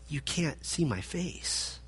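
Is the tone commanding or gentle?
gentle. It is said softly, like a caring warning. It is a kind warning to protect him. "This was kindness"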